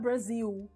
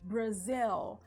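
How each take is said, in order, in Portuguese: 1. O L final soa como a vogal U. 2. O L final é um L claro, com a língua elevada. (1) "Não é Brasil" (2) "Tem que pronunciar o L"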